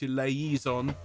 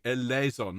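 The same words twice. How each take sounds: First: "eleison" slowly as e-lay-EE-zon; wrong pronunciation. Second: "Eleison" as e-LEH-zon; correct pronunciation. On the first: Choir leader showing what to avoid, "eleison" as e-lay-EE-zon. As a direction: add an "ee" syllable inside "eleison". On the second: Choir leader confirming the vowel for singers, "Eleison" as e-LEH-zon. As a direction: open "eh" in "Eleison", no "ee". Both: Shown as a demonstration. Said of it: "not eleison".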